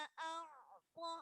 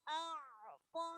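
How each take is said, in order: No difference in how they are said.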